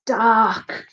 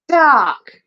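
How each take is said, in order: First: Measured cue word, only slightly raised; feed a forgetful actor the word; matter-of-fact stage prompt; teacher prompting. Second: High, loud stage cry; over-eager amateur actor exclamation; exclaiming. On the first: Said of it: "prompted Mister Lace". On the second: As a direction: proclaim the word you were just fed. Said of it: "Elvis exclaimed". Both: A narrator's reading.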